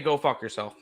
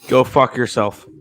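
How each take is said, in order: First: It is said in a friendly, gentle tone. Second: It is said in a harsh, hostile tone.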